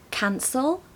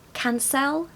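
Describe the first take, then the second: First: The unstressed vowel is a weak uh sound. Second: The unstressed vowel is a full eh sound. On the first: "schwa sounds for E" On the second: "Without the schwa sound ... You can hear eh"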